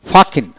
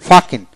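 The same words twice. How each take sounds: The two takes are said the same way.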